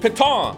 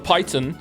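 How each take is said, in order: First: The word is said with a French pronunciation. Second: The word is said with an English pronunciation. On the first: The speaker calls it right. "because it's a French word" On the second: The speaker calls it wrong. "or as I said"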